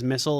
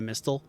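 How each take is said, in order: First: It is said like the word missile. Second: It is said like the word mistle. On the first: This is how some people pronounce it. "some people do, is missile" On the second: This follows the spelling of the name. "instead of mistle"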